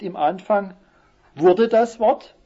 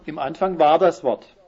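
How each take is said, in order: First: Higher, louder and slow on "wurde das Wort"; wrong version stressed. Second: Firm statement, falling tune on "war das Wort"; correct version. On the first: Preacher showing the congregation the wrong reading, high and loud. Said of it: "es heißt nicht". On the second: Preacher giving the congregation the right reading, firm and falling. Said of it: "sondern, wie heißt es?". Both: Shown as a demonstration.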